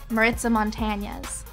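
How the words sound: The name is pronounced with English sounds. This is an easier, acceptable form. "that's the anglicized, easy version"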